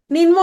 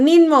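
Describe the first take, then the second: No difference in how they are said.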